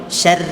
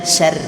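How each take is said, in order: No difference in how they are said.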